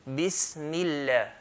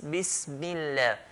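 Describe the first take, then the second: No difference in how they are said.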